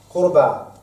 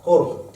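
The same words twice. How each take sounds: First: Qurba, the full word with its ending a sounded; قربى بوضوح; Arabic word qurba. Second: Qurb, the bare root, clipped short with no ending; قرب مختصرة; Arabic root qurb. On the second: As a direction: drop the ending and just say qurb. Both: Shown as a demonstration.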